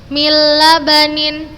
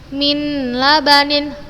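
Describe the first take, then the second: First: The n merges fully into the following l. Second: The n is pronounced before the l. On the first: The speaker calls it right. "tanpa gunnah" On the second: The speaker calls it wrong. "Ustazah bukan membacanya min labanin, la, khata, salah"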